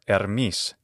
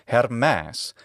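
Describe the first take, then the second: First: It uses the modern Greek pronunciation. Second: It uses the classical Attic Greek pronunciation. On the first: "in the modern Greek pronunciation" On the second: "in classical Attic, his name is"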